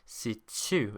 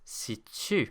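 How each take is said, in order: First: The t has an s-like hiss after it. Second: The same.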